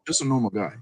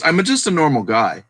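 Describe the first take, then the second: First: Quieter, offhand repeat; softer echo. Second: Said in the usual way. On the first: Retold or imitated. Echoing the picker's modest words, quietly. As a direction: drop the voice and echo it lightly. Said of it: "That's all he said". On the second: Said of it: "and he goes".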